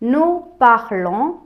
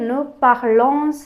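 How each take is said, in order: First: No final s sound is pronounced at the end. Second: A final s sound is pronounced at the end. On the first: The speaker calls it right. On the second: The speaker calls it wrong.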